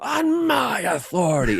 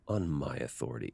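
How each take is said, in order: First: It is said in an angry way. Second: It is said calmly, without anger.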